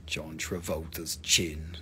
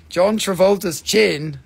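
First: Low, slow, soft murmur; deep hushed awe; hushed repeat. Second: Slow, loud exclamation; loud, drawn-out reveal; loud announcement. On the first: Pretend. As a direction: say it low and slowly under your breath. Same joke repeated under breath. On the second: Real, not acted. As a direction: announce it big and slowly. Announcing a joke likeness of rock.

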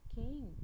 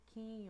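First: Quem said much louder and held up; stressed example word. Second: Said in the usual way. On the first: Shown as a demonstration. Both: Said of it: "dessa palavra aqui".

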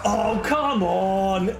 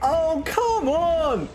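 First: Drawn-out, slow COME ON; exasperated groan. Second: High, drawn-out COME ON; exasperated wail. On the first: Player fed up with the game, slow groaned COME ON. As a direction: stretch COME ON into a long groan. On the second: Player fed up with the game, high wailed COME ON. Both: Real, not acted.

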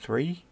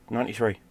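First: "ninety-three" high, with a rising, unsure end; questioning ninety-three. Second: "ninety-three" settled, with a falling end; confirming ninety-three. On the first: Unsure of year, then confirms. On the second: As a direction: bring "ninety-three" down as a firm answer. Confirms the year just questioned. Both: Real, not acted.

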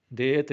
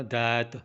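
First: "ਦੇਤ" with a closed long e; plain e vowel. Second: "ਦੈਤ" with an open, long ai; open ai vowel. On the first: Teacher showing the mistake, "ਦੇਤ" with closed e. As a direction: say "ਦੇਤ" with e as in day. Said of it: "ਦੇਤ ਨਹੀਂ ਬੋਲਣਾ". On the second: Teacher showing correct word, "ਦੈਤ" with open ai. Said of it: "ਦੱਦੇ ਦੇ ਲਾਵਾਂ ਲਾਉਣੀਆਂ". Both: Shown as a demonstration.

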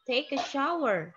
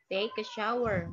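First: "take a shower" said louder and higher, modelled for the class; teacher modelling. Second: Said in the usual way. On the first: Shown as a demonstration. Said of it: "Take a shower, mandi".

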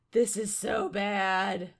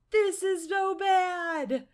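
First: Loud, slow, at normal pitch; slow lament without the shriek; sinking dismay. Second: High, loud, slow cry; drawn-out high shout of dismay; panicked wail. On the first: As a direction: draw it out with heavy dread. Repeats it as panic settles. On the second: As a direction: wail it in alarm. Panics at the crowd of gnomes. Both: Real, not acted.

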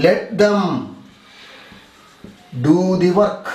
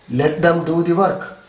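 First: Phrase by phrase with a long pause; slow dictation. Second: Said in the usual way. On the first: Shown as a demonstration. Teacher giving students an example to write, slow dictation. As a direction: leave time to write between the halves.

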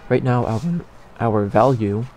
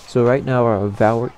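First: Said in the usual way. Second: Voice cracking. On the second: Real, not acted. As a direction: voice cracks mid-word. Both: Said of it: "like, triple voice crack there".

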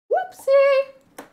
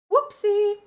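First: Even higher louder "whoopsie"; shrieked cutesy oops; higher squeaky whoopsie. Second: Squeaky high "whoopsie"; cutesy high-pitched oops. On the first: In-game mistake, again. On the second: In-game mistake. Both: Pretend.

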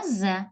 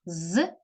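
First: З said as its name, "ze"; name the letter з with an e after it. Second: З as a bare consonant sound, not its letter name. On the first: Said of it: "буква з". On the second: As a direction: voice з as a short buzzing z. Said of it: "Звук з". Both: Shown as a demonstration.

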